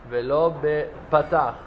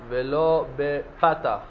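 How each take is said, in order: No difference in how they are said.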